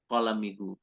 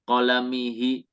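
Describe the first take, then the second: First: The final pronoun vowel is a u sound. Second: The final pronoun vowel is an i sound. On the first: The pronoun keeps its fixed vowel unchanged. "kalau mabni ya udah dia nggak bisa berubah" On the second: The pronoun vowel follows the vowel before it. "dia menyesuaikan harakat sebelumnya kayak kolamihi"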